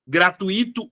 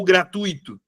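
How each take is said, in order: First: "Gratuito" as gra-tu-Í-to, stress on the I; slow "Gratuito" with a separate, stressed I. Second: "gratuito" as gra-TUI-to, stress on the U; slow "gratuito" with TUI as one syllable. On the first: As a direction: split the vowels of "Gratuito" and hit the I. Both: Shown as a demonstration. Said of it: "palavras que geram muita dúvida".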